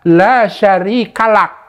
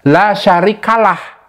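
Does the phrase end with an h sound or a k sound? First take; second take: k sound; h sound. First: The phrase ends with a k sound. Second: The phrase ends with an h sound. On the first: The speaker calls it right. "Yang benar bagaimana? ... huruf kaf atau huruf K" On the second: The speaker calls it wrong. "mereka membacanya ya, la syarikalah, huruf H. Terakhirnya itu salah"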